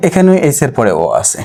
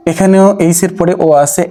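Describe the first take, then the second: First: Said in the usual way. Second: "এখানেও" pitched higher and stressed, the whole line lifted; emphatic first take. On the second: Shown as a demonstration. Teacher stressing to students that here too o follows h. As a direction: punch "এখানেও" high, then point out the o after h. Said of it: "এখানেও H দিয়া".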